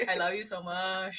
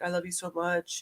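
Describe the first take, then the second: First: Soft, murmured lovey line with a laugh in it; hint of Syed's smitten murmur, softer; Syed impression. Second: Soft, murmured mock declaration of love; lightly voiced smitten boyfriend, much softer; mock lovey man. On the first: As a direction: coo it like Syed would, half laughing. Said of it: "Are you Syed? [name] all of a sudden is Syed". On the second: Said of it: "He's like".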